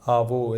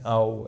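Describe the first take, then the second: First: A v sound links the two vowels. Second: The two vowels join with no v sound. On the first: It is the regional Rajasthani way of saying it. The speaker calls it wrong. "ऐसे अपन बोलते हैं आवो सा, ये राजस्थान में चलता" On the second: It is the standard form. The speaker calls it right. "वैसे वो नहीं है, आओ है"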